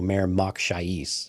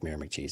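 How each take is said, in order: First: The name is said slowly with each syllable distinct. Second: The name is said quickly with syllables run together. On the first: The speaker calls it right. "I wish they would have enunciated better" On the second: The speaker calls it wrong. "did just blurt it out"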